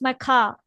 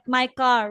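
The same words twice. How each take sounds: First: The final R in car is dropped. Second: The final R in car is pronounced. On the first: This is how British speakers say it. "They'll say that's my car" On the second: This is how American speakers say it. "not my car"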